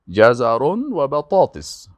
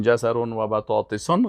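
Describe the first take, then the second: First: بطاطس ending plainly on s, said slowly; correct ending. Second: بطاطسون with the wrong -un ending. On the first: Teacher gives students the correct بطاطس, slowly. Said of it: "باید بگی بطاطس". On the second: Teacher shows students the wrong ending بطاطسون. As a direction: demonstrate بطاطسون as the mistake. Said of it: "غلط است". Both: Shown as a demonstration.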